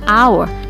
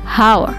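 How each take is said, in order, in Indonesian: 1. Kata itu diawali dengan vokal; h tidak dibaca. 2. Kata itu diawali dengan bunyi h yang dibaca. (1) "H dibaca hour" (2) "tidak dibaca hour"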